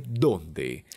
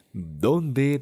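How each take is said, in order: First: "dónde" stressed on DÓN, falling at the end; falling, final-sounding "DÓNde"; accented DÓNDE. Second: "dónde" held high, not falling at the end; high, rising "dónde"; unaccented donde. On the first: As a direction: land "dónde" on the first syllable and drop. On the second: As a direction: leave "dónde" hanging up in pitch, as if unfinished. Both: Shown as a demonstration. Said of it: "pero tienen diferente significado".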